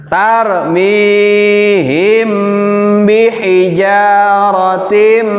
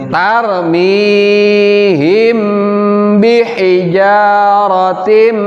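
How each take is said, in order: Both takes have the same delivery.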